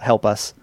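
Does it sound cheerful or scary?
scary. It sounds scary and ominous.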